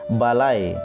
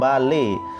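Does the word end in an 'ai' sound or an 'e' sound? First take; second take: ai; e. First: The word ends with the vowel sound ai. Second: The word ends with the vowel sound e. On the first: This is the modern Indonesian pronunciation. "dia bersuara ai" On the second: This is the Balinese dialect pronunciation. "dialek Bali"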